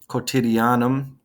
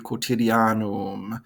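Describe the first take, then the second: First: The vowels are pronounced shorter. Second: The vowels are pronounced longer.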